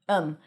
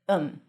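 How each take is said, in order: First: It drops the th, sounding like um. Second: It drops the th, sounding like um.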